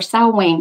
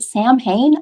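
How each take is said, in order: First: The word is not said the way it's spelled. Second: The word is said just the way it's spelled. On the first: The speaker calls it right. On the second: The speaker calls it wrong.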